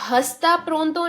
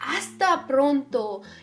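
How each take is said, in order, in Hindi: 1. पहला शब्द h ध्वनि के साथ शुरू होता है। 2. पहला शब्द बिना h ध्वनि के शुरू होता है। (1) "ये हस्ता प्रोंतो नहीं है।" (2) "एच हमेशा साइलेंट होता है।"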